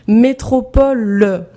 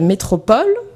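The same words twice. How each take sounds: First: The final e is pronounced. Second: The final e is dropped. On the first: The speaker calls it right. "[name] marquant le E muet" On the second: The speaker calls it wrong. "tu as déjà mangé le E"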